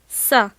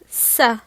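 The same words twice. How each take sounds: The two takes are said the same way.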